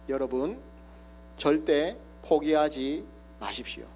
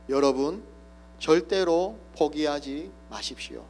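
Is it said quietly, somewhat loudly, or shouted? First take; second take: quietly; somewhat loudly. First: It is said quietly and deliberately. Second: It is said somewhat louder.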